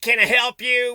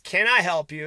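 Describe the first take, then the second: First: It is said in a fake, insincere tone. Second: It is said sincerely, as if wanting to help.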